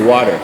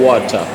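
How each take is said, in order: First: It is said with an American accent. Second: It is said with a British accent. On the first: "American accent" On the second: "for British accent"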